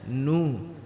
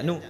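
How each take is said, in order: First: The vowel is drawn out long. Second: The vowel is short and clipped. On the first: The speaker calls it right. "harus dibaca nu karena ada waw ma mati" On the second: The speaker calls it wrong. "hanya baca nu"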